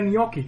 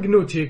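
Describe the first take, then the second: First: It starts with an N sound and has a k sound. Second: It starts with a hard G and has a ch sound. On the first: The speaker calls it right. "איך אתה יכול להבין מזה ניוקי" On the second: The speaker calls it wrong. "הייתי אומר גנוצ'י"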